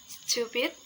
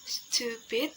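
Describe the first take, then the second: First: Said in the usual way. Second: "stupid" stretched into two clear syllables; syllables drawn out. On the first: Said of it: "the adjective". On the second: Shown as a demonstration. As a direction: say "stupid" slowly for learners. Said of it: "the syllable is".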